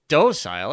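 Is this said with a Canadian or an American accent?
Canadian. It is said the Canadian way.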